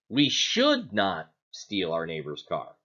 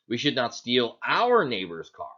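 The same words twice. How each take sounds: First: The stress falls on the word "should". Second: The stress falls on the word "neighbor's". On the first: We ought not to, but we will anyway. "Are we saying that we shouldn't, but we're going to anyway?" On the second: Stealing someone else's car would be fine. "So is it okay if we steal somebody"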